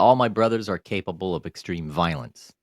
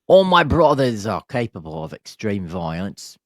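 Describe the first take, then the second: First: It is said in the speaker's ordinary accent. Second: It is said in a put-on Australian accent.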